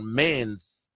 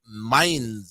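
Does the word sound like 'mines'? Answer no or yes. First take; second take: no; yes. First: The word does not sound like 'mines'. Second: The word sounds like the English word 'mines'. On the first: The speaker calls it wrong. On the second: The speaker calls it right.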